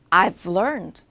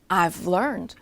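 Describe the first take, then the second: First: Have is shortened and joined onto I. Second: Have is shortened and joined onto I.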